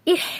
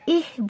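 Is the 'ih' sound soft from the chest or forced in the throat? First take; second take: throat; chest. First: The h sound is forced hard in the throat. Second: The h sound comes softly from the chest. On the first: The speaker calls it wrong. "इह नहीं बोलना" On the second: The speaker calls it right. "इह बोलना"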